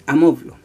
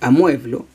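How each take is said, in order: First: The stressed vowel is a plain o. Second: The stressed vowel is the diphthong ue. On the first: The speaker calls it wrong. "no es amoblo" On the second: The speaker calls it right. "amueblo no es amoblo"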